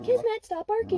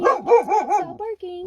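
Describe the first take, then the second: First: High, pleading dog command. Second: Slow, drawn-out firm command. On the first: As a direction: beg the dog to stop, sing-song. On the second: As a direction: stretch each word to make her stop. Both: Shown as a demonstration. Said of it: "See the difference?".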